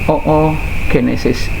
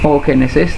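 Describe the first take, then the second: First: The opening o is said twice, as two vowels. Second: The opening o is one long drawn-out vowel. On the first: The speaker calls it right. "tapi ini dibaca double oogenesis" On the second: The speaker calls it wrong.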